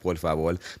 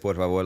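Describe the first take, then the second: First: The word ends with an L sound. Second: The word ends with an R sound. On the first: This is how Dominicans say it. "we say it like with the L" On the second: This is how others usually say it. "you would say por favor"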